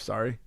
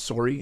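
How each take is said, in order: First: It is said with an American accent. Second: It is said with a Canadian accent. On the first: "instead of" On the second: "He's Canadian, yeah. That's why he says sorry"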